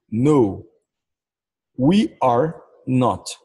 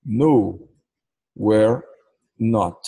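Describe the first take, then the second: First: Slow, careful "No, we are not"; full form, no contraction. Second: Quick, contracted "No, we're not"; contracted form. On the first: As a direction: say "we are not" with each word separate and slow. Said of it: "Se eu não tivesse abreviando, eu falaria assim". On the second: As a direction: say "we're" as a single syllable. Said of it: "Como aqui está abreviado?". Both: Shown as a demonstration.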